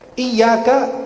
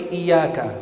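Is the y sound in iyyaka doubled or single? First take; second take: doubled; single. First: The y sound is held long and doubled. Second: The y sound is short and single.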